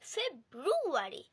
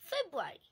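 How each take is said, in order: First: An R sound follows the B. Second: No R sound follows the B. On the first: The speaker calls it wrong. "আমরা অনেকেই বলে থাকি ফেব্রুয়ারি" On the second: The speaker calls it right. "আসল উচ্চারণ হবে ফেব্রুয়ারি, আটটা আসবে না"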